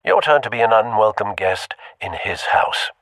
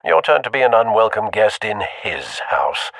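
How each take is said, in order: Both takes have the same delivery.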